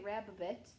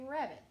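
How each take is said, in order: First: The middle b sound is said twice. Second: The middle b sound is said once. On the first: The speaker calls it wrong. "You don't say rabbit" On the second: The speaker calls it right. "you say rabbit"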